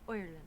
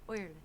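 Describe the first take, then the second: No difference in how they are said.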